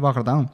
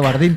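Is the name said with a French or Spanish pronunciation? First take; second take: French; Spanish. First: The name is pronounced the French way. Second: The name is pronounced the Spanish way. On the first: This is the name's original form. The speaker calls it right. "es francés, ¿no? Y se llama René Bardin" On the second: This is the adapted local form. The speaker calls it wrong. "españolizamos todo y somos así de brutos y acabó quedándose como Renato Bardín"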